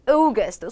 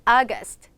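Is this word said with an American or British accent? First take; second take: British; American. First: It is said with a British accent, lips rounded. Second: It is said with an American accent. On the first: "영국식 발음으로 들어갔을 때는 입술을 앞으로 쭉 모으시고" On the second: "미국식 발음으로 들어가면 그냥 August"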